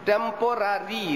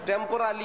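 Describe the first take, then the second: First: The last syllable is said with an R sound. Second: The last syllable is said with an L sound. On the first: The speaker calls it right. "রি শব্দ হল টেম্পোরারি" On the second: The speaker calls it wrong. "টেম্পোরালি এরকম না"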